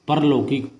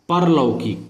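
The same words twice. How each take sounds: First: The first vowel is short. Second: The first vowel is short.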